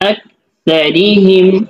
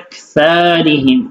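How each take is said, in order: First: The vowels in the word are kept short. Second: A vowel in the word is drawn out long. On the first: The speaker calls it right. "তার মধ্যে কি নাই কোনো টান নাই" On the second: The speaker calls it wrong. "সাথে সুন্দর করে টান দিয়ে দিচ্ছে"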